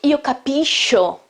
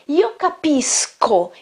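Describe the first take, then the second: First: The middle consonants sound like sh. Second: The middle consonants sound like sk. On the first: The speaker calls it wrong. "it's not" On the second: The speaker calls it right. "that's why the sound is sk"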